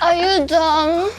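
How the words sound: It is said in a cute, playful voice.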